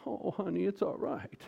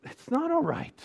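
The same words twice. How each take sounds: First: Higher-pitched, soothing mom voice; coddling mommy. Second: High-pitched, insistent contradiction; emphatic rebuttal. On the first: Acted. Mommy consoling a child who left football practice, coddling. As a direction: coo it like a comforting mother. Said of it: "Mommy goes". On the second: Real, not acted. Preacher rebutting the mom's comforting words, emphatic. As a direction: push back hard, pitch jumping up.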